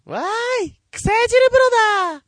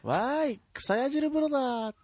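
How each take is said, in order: First: Put-on very high, loud, beaming girl voice; high cute anime girl. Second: Put-on high cute anime girl. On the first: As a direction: squeal it like a grinning anime heroine. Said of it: "原田ひとみが満面の笑みで一言。ドドン。". (満面の笑みのかわいいアニメ声) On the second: Acting Harada's beaming one-liner.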